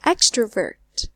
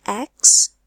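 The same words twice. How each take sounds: First: Slow "Extrovert", weight on EX; first-syllable stress. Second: "extrovert" broken into ex, tro, vert with gaps; syllable by syllable. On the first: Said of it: "it must be the first syllable". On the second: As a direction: count out the three syllables of "extrovert". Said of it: "three syllables". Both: Shown as a demonstration.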